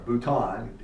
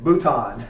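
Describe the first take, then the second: First: "Bouton" said "boo-tahn" with a Southern twang; bouton in a Tennessee accent. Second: "Bouton" repeated as "boo-tahn", a bit louder; bouton in a Tennessee accent. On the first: Teacher jokes about his accent while saying "Bouton". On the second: Teacher owns his Tennessee accent on "Bouton". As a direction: say "Bouton" again in a Tennessee twang. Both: Shown as a demonstration. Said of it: "Tennessee accent".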